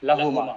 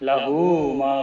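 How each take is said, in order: First: The 'hu' is short and runs into 'ma'. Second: The 'hu' is stretched before 'ma'. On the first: The speaker calls it wrong. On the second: The speaker calls it right.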